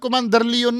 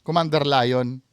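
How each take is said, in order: First: The name is pronounced with two syllables, lay-on. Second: The name is pronounced like the word lion. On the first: A possessing spirit would be speaking. The speaker calls it right. "Leon dapat eh, ang pronunciation eh" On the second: The medium is still speaking as himself. The speaker calls it wrong. "ang tawag niya kay Commander Leon, Commander Lion"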